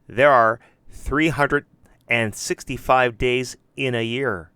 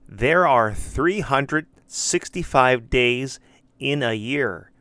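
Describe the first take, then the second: First: Three hundred and sixty-five with and, a bit louder on three hundred; alternative wording. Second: Said in the usual way. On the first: Shown as a demonstration. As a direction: model the other way to say the number. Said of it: "Or they can say it like this". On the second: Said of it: "They should answer it like this".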